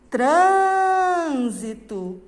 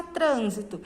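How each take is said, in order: First: "Trânsito" called loudly with a very long Trân; loud demo call of "Trânsito", stress stretched on Trân. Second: Said in the usual way. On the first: Shown as a demonstration. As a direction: holler "Trânsito" slowly, holding the first syllable. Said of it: "vai lá no portão e vai falar".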